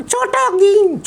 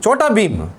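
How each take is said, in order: First: Put-on high, slow child puppet voice; puppet boy voice. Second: Said in the usual way. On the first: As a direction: play the cheeky little boy puppet. Puppet names hero.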